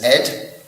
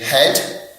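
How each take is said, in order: First: The h sound is dropped, dialect style. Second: The word starts with a clear h sound.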